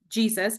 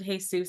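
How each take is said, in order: First: The name is pronounced the English way. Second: The name is pronounced the Spanish way.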